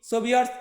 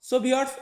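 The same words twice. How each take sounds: The two takes are said the same way.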